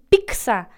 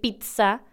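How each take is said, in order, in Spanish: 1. La zz suena como ks. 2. La zz suena como ts. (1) "como si fuera P-I-C-S-A" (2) "en lugar de decir pizza"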